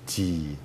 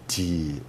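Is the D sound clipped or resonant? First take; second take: resonant; resonant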